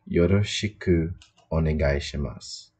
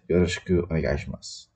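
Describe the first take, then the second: First: The phrase is said slowly, syllable by syllable. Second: The phrase is said quickly, with sounds run together. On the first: "phonetically it is spelled" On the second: "more of a native and kind of quicker quicker way to say it"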